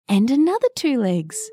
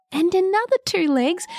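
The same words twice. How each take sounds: First: Said in the usual way. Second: Higher, building wonder; rising suspense. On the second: A narrator's reading. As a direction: climb up for the last one. Repeated legs, rising suspense.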